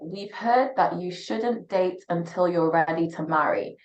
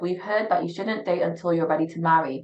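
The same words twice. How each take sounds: First: It is read more slowly. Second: It is read at a normal pace.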